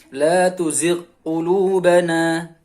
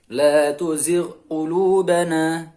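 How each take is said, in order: Both takes have the same delivery.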